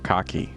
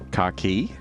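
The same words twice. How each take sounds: First: The final vowel is kept short. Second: The final vowel is held long. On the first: It means the trousers or the colour. The speaker calls it wrong. "not car key" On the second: It means the keys for a car. The speaker calls it right. "that has a longer I on the end"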